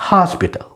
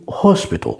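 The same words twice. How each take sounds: First: American "hospital" with an open AH; American pronunciation of "hospital"; American accent. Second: British "hospital" with a rounded O; British pronunciation of "hospital"; British accent. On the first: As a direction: say "hospital" the American way, like HAHS-pital. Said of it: "الأكسنت الأمريكاني". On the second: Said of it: "الجماعة البريطانيين بيقولوا". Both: Shown as a demonstration.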